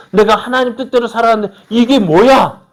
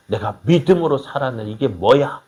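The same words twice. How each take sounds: First: Loud, high-pitched outburst of complaint; acted indignant protest. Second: Understated grumble of a let-down believer; mock complaint. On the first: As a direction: cry out in mock outrage at God. 실망한 신자의 항변을 흉내. (높고 큰 소리로 따지듯 항변) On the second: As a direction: grumble it at usual volume, in mild disbelief. 실망한 신자의 불평을 흉내. (억누른 듯 가볍게 투덜대는 말투)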